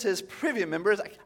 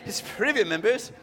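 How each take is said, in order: First: It is said in the speaker's plain accent. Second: It is said in a put-on British accent.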